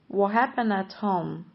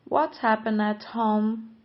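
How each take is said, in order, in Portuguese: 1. A frase é falada depressa, num ritmo mais rápido. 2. A frase é falada num ritmo mais lento e cuidadoso.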